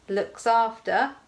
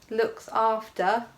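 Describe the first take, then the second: No difference in how they are said.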